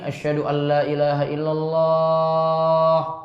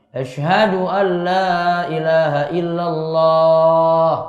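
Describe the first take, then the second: First: The phrase is said quietly and softly. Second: The phrase is said loudly and strongly. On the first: "Itu suaranya khafat, pelan dulu" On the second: "Terus dikencangkan lagi, dikeraskan lagi"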